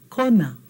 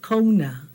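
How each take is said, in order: First: Kona with one pure O, no glide; flat O. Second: Kona said slowly as English "koh-oo-na"; mispronounced kona. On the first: Teacher correcting the mistake for class, flat O in Kona. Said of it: "Flat O". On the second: Teacher showing what not to say, mispronounced kona. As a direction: glide the O in kona toward "oo". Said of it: "not kona". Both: Shown as a demonstration.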